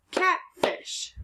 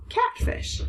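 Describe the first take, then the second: First: Catfish breathed out much higher; whispery high catfish reveal; excited blend. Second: Catfish whispered, level and settled; unvoiced soft final catfish; quiet confirming whisper. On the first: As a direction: squeak catfish as a happy discovery. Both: Shown as a demonstration.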